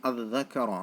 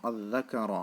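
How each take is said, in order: The two takes are said the same way.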